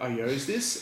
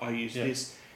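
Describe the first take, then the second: First: The verb sounds like 'yoze', rhyming with 'chose'. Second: The verb sounds like the usual word 'use'. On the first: The speaker calls it wrong. "he started saying yo's" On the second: The speaker calls it right. "instead of saying used, like the word used"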